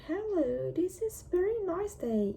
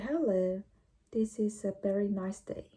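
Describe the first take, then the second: First: The voice is pitched high. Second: The voice is pitched low. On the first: The speaker calls it wrong. "it was exactly my voice in the past" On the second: The speaker calls it right. "By lowering the tone of my voice"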